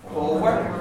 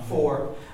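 First: The word is said as two syllables. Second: The word is said as one syllable. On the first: The speaker calls it right. "There's two syllables in this word" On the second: The speaker calls it wrong. "People get very lazy and they say the English word for car, which is four"

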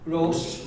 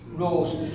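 First: The s sound is voiceless, like an s. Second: The s sound is voiced, like a z. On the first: This is how an Irish speaker says it. "it isn't voiced at all. He says Rose" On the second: This is the usual English pronunciation. "in English, it's voiced, so you say Rose"

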